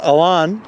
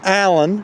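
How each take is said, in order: First: The name is said with non-American pronunciation. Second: The name is said with American pronunciation. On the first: This is how his family says it. "and not Alan. But to me, he's Alan" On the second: This is how people in America will say it. "In America, ... they will call him Alan"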